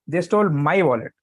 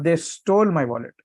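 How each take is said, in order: First: The stress is on "my". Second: The stress is on "stole".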